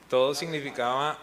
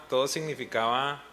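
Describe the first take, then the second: No difference in how they are said.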